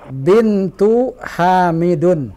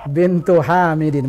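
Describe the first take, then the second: First: The last word ends with an 'un' sound. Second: The last word ends with an 'in' sound. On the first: The speaker calls it wrong. "ini salah" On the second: The speaker calls it right. "Yang betul adalah bintu Hamidin"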